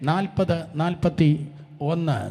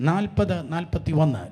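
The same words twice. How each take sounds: First: Dictated slowly so all can find the verse; slow and clear. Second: Said in the usual way. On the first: Shown as a demonstration. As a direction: spell out നാൽപത്, നാൽപത്തിയൊന്ന് slowly for the crowd. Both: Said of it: "ശബ്ദം ഉയർത്തി വായിച്ചാട്ടെ".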